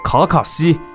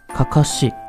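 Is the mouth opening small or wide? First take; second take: wide; small. First: It is said with a wide, fully open mouth. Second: It is said with a small, tight mouth opening. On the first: The speaker calls it wrong. "而不是卡卡西啊" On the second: The speaker calls it right. "你得发成卡卡西"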